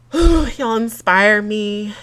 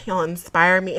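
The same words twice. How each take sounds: First: Heartfelt sigh. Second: Said in the usual way. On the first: Real, not acted.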